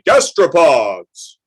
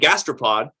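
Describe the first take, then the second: First: The word is said in a funny, exaggerated voice. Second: The word is said in a plain, ordinary voice. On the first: The word is made memorable. The speaker calls it right. "I started saying it in a funny way" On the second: The word is easily forgotten. The speaker calls it wrong. "If I just say gastropod and just keep going"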